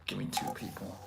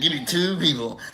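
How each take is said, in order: First: Whispered, low repeat of a joke. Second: Said in the usual way. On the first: Retold or imitated. Host repeats the chatter's joke to himself, whispering. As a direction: say it under your breath, whispering.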